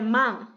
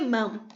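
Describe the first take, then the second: First: The word ends with an ng sound. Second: The word ends with an m sound. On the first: The speaker calls it right. "É man" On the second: The speaker calls it wrong. "não é mam"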